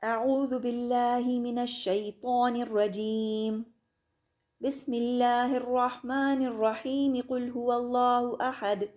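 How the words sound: The pause comes before 'bismillahir', then runs on. "इस्तिआज़ा के बाद सांस ली और फिर बसमला को सूरत के साथ मिला के पढ़ा"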